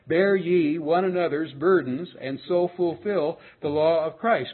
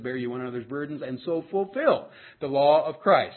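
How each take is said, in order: First: It is said more slowly. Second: It is said at a normal pace.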